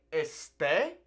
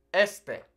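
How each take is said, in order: First: Este stressed on the last syllable, es-TAY; stress on second syllable. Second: Este stressed on the first syllable, ES-te. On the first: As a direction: say este with the accent on the final e. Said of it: "beware of how you're pronouncing these". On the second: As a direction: punch the first e of este, light ending. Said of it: "That emphasis falling on that first E". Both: Shown as a demonstration.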